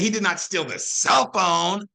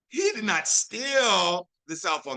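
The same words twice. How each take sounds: First: The stress falls on the words cell phone. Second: The stress falls on the word steal. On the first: He took something else instead. "that means he stole the freaking charger" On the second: He only borrowed it. "that means he just borrowed it for a little bit"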